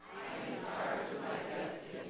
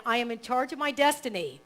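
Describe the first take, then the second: First: Faint congregation repeating from afar; distant group recitation; group echo. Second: Affirmation read. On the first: Real, not acted. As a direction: murmur it back as a crowd. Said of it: "you can repeat it together". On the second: Shown as a demonstration. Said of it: "I'll read that one line".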